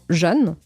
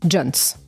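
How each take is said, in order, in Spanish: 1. La palabra empieza con un sonido 'j' suave. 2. La palabra empieza con un sonido 'dj'. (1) "que es como jeune" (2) "pero con una D"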